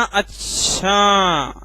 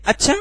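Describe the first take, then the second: First: "अच्छा" with a long stretched final vowel, falling; drawn-out अच्छा. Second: Quick "अच्छा" lifted high at the end; questioning अच्छा. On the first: Teacher showing how intonation changes meaning, drawn out. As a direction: drag out the end of "अच्छा". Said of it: "अच्छा को खींच रहे हैं sir". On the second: Teacher contrasting ways of saying a word, short questioning. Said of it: "ये भी sir बोलने का तरीका". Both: Shown as a demonstration.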